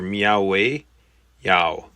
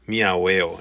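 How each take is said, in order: First: A y glide is heard between the vowels. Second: The vowels run together with no y glide. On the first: The speaker calls it right. "You need the y in there" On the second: The speaker calls it wrong. "it would eat the I, ... and that wouldn't sound right"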